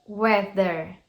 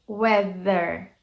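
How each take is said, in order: Both takes have the same delivery.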